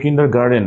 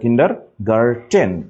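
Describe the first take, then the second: First: The last part is said with a d sound. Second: The last part is said with a t sound. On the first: The speaker calls it wrong. "এটা কিন্তু কিন্ডার গার্ডেন না" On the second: The speaker calls it right. "এটা কিন্ডার গার্টেন"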